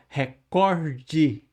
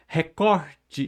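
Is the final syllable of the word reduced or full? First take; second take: full; reduced. First: The final syllable is clearly and fully sounded. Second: The final syllable is weak and barely sounded. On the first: The speaker calls it wrong. "Ninguém fala recorde" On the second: The speaker calls it right. "essa última sílabazinha a gente fala sem muita entonação"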